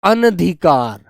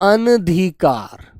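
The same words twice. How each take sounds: First: A short vowel follows the first syllable. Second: The same.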